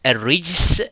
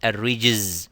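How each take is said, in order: First: The word ends with a hissing s sound. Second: The word ends with a buzzing z sound. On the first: The speaker calls it right. "we should pronounce it a rijs" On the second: The speaker calls it wrong. "and not a rijz with a zay"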